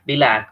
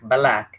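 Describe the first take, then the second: First: An i-like vowel is inserted between b and l. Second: An a-like vowel is inserted between b and l. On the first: "other students they read it as bilak" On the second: "or balak"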